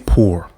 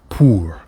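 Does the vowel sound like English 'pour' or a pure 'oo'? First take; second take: English pour; pure oo. First: The vowel sounds like English word pour. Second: The vowel is a pure oo sound. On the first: The speaker calls it wrong. "Don't say pour" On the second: The speaker calls it right. "make sure you're saying oo"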